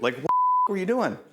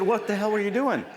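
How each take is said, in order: First: Said in the usual way. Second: Higher, pushed exasperated demand; retold exasperated question. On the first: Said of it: "Pardon me, I say f". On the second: Trainer retells scolding Brad, higher mock exasperation. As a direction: act out grilling the trainee, a mock angry snap. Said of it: "I said".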